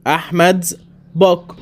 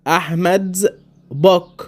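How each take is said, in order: Both takes have the same delivery.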